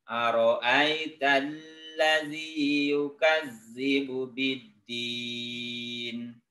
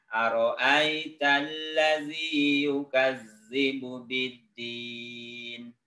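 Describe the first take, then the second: Both takes have the same delivery.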